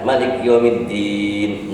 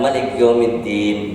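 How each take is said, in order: First: The final vowel is held about six counts. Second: The final vowel is short and only faintly voiced. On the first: "enam harkat" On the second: "dua harkat ma'raum"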